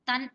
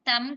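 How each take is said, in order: First: The syllable ends with an n sound. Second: The syllable ends with an m sound. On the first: The speaker calls it right. "నా అనేది చేరుస్తున్నాం తన్ అంటున్నాం" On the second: The speaker calls it wrong. "తం కాదండి"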